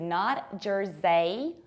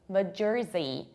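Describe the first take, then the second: First: The R sound is weak. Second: The R sound is very strong. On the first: The speaker calls it wrong. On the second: The speaker calls it right. "you pronounce a very strong R"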